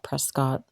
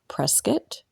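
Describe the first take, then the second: First: It is pronounced the way outsiders say it. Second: It is pronounced the way local residents say it. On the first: This is how visitors to the town say it. The speaker calls it wrong. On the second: This is how residents of the town say it. The speaker calls it right. "the locals pronounce it"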